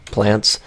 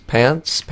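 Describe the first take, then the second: First: "Plants" said carefully with a clear PL; "Plants" as the right take with the L; corrected word. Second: "Pants" said without the L, as pants; slip of the tongue. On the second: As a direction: say "Pants" dropping the L sound. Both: Real, not acted.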